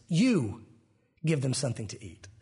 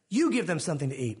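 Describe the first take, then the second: First: "You" set apart by a pause, the rest dropping low; emphatic YOU. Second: "You" leaned on at the start, rest run on; stress on you. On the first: Shown as a demonstration. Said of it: "way with emphasis". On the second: Retold or imitated. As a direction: lead with an emphatic "You", no break after it. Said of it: "is emphatic".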